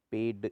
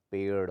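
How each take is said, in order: First: पेड़ said as ped with stopped d; no flap ending पेड़; hard d. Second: Said in the usual way. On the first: Shown as a demonstration. Teacher shows the error, पेड़ with hard ड. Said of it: "नहीं होता". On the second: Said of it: "होता है".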